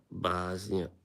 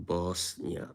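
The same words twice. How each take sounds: First: Bosnia said the American way, BAHZ-nee-uh with a z. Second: Said in the usual way. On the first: Shown as a demonstration. Streamer tells chat how Americans say her country, American pronunciation. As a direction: say Bosnia with an American flat a and a z sound. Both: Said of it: "as the Americans say".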